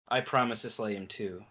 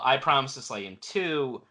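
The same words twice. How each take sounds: First: The line is said in a resigned, deflated tone. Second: The line is said in a happy, jubilant tone. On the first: The speaker regrets not getting to kill the enemy himself. "more of a resigned like" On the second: The speaker is glad the enemy died this way. "he sounds happy about it"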